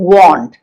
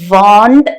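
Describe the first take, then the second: First: It begins with rounded lips, a w sound. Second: It begins with a v-like sound, lips unrounded. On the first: The speaker calls it right. "ചുണ്ട് നമ്മൾ ഒരു round ഷേപ്പിൽ പിടിക്കും" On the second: The speaker calls it wrong. "want എന്ന് നമ്മൾ പറയുന്നില്ല"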